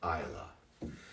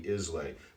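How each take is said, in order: First: The name ends with an 'uh' sound. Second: The name ends with an 'ay' sound. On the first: The speaker calls it right. "but it's pronounced Isla" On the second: The speaker calls it wrong. "it really is phonetically Islay"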